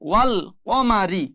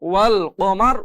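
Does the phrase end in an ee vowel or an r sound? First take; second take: ee vowel; r sound. First: The phrase ends with an ee vowel. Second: The phrase ends on a bare r sound. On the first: "রজের রি" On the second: "ওয়াকফ থাকার কারণে ওয়াল কমার"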